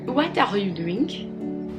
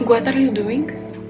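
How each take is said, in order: First: It is spoken with a French accent. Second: It is spoken with a Spanish accent. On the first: "if I speak French, I may say something like this" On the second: "Something might be from Spanish as well. Might sound like this"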